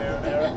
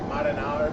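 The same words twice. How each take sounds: First: It is said in a plain American accent. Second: It is said with an exaggerated Italian-American accent. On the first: It is the ordinary everyday way of saying it. "instead of marinara" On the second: It gives the corny old-style Italian restaurant experience. "I want somebody to say marinara"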